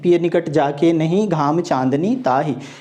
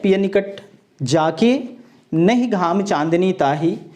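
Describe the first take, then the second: First: There is a pause after the word 'nahin'. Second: There is a pause after the word 'jaake'. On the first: The beloved is not near, so even moonlight burns like sun. "दूसरा पद यह है कि पिय निकट जाके नहीं" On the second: The beloved is near, so sun and moonlight both delight. "पहले पद में जो विराम चिन्ह है"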